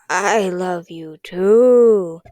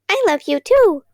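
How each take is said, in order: First: It is said in a dry, raspy voice. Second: It is said in a tiny, squeaky voice.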